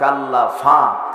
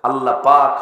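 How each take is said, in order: First: The second word begins with an f sound. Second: The second word begins with a p sound.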